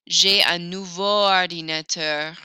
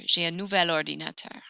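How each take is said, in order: First: The adjective ends in a vowel before ordinateur. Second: An L sound links into ordinateur. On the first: The speaker calls it wrong. "Nouveau won't work" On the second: The speaker calls it right. "Nouvelle, but make it manly"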